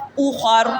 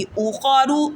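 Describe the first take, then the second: First: اوخر closing on a full, heavy r; stopped, heavy r. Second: Said in the usual way. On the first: Shown as a demonstration. Teacher models the pause, اوخر with heavy final r. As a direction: end اوخر on a thick r without vowel. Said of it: "موٹی پڑھی جائے گی". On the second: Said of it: "وقف".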